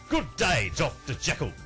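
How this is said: It is spoken in an Australian accent. The speaker calls it wrong. "That is an Australian accent"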